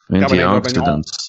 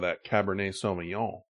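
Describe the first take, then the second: First: It is said as fast as possible. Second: It is said at normal speed.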